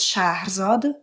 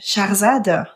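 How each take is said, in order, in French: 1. Le nom se prononce à la persane. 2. Le nom se prononce à la française.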